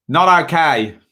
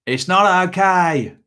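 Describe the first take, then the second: First: Clipped Kiwi "Not okay", stress on not; New Zealand accent. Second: Slow Kiwi "It's not okay", "not" pitched higher and leaned on; New Zealand accent. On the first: Imitating old boss scolding badly behaved kids, New Zealand accent. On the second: Imitating old boss telling off badly behaved children, New Zealand accent. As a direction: scold the kids like a Kiwi boss, slowly. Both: Retold or imitated. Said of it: "as my old boss used to say in a New Zealand accent".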